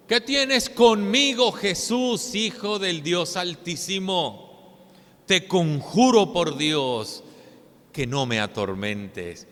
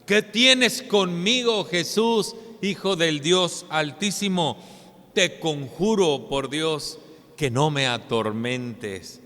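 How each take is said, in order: First: Loud, slow, pleading demon cry; clamando a gran voz. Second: Exclaiming demon plea. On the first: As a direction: cry out to Jesus like a tormented man. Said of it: "clamaba a gran voz diciendo". (clamor fuerte y lento del endemoniado) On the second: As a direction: plead like one possessed. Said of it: "la que este hombre exclamaba". (exclamación angustiada del endemoniado) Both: Acted.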